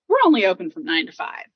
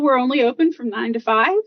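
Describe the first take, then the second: First: The voice falls at the end. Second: The voice rises at the end. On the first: The speaker sounds sure of the decision. The speaker calls it right. "Instead of saying" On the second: The speaker sounds unsure of the decision. The speaker calls it wrong. "sometimes our voice goes up at the end of the sentence"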